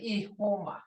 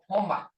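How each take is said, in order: First: The word starts with a full initial vowel. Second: The initial vowel is dropped from the word. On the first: It is the formal form. "we don't say ihoma" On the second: It is how people talk to each other. "we say homa"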